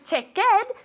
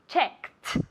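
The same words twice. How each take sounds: First: The word is said with two syllables. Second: The word is said with one syllable. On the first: The speaker calls it wrong. "Y no se añade otra sílaba. No es checked" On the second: The speaker calls it right. "check tiene una sílaba y en pasado es checked"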